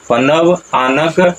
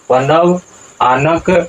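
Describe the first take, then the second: First: It is split into two separate words. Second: The same.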